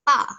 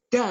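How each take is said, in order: First: It starts with a T-like sound. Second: It starts with a voiced D sound. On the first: The speaker calls it right. "tapi diganti dengan T" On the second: The speaker calls it wrong. "Jadi bukan dibaca da, seperti kita eh, bilang D seperti umumnya"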